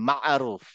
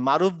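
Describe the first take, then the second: First: The middle has a tight throaty sound after 'ma'. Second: The middle is a plain 'ma' with no throat sound. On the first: The speaker calls it right. "ওখানে একটা আইন আছে" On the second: The speaker calls it wrong. "শুধু জাস্ট মা"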